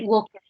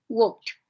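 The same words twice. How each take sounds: First: The ending does not sound like a t. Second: The ending sounds like a t. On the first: The speaker calls it wrong. "Sería incorrecto que dijéramos" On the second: The speaker calls it right. "La ed va a sonar como una T"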